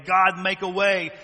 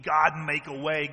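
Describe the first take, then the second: First: God, make a way much louder and slower; fervent loud prayer. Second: Earnest prayer. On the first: Praying for a brother, loud and fervent. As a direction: cry out to God. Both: Retold or imitated. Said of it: "repeat builds".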